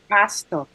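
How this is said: Said the way Nigerians pronounce pastor. "we're like pastor"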